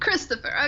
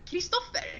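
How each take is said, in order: First: The name is said with English pronunciation. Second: The name is said with Swedish pronunciation.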